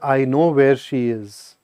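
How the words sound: It sounds sad and heavy. Something tragic may have happened. "this is sad"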